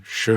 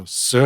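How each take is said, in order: First: "sh" as shuh, the word for ten. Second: "s" as suh, the word for four; southern "s" for four. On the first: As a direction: model "sh" with the tone meaning ten. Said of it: "would be ten". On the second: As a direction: model "s" with the tone meaning four. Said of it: "would be four". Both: Shown as a demonstration.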